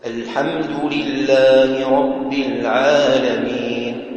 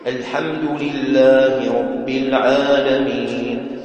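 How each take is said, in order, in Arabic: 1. الألف بعد العين تُنطق مرققة. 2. الألف بعد العين تُنطق مفخّمة. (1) "الألف لا تفخم" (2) "هذا تفخيم"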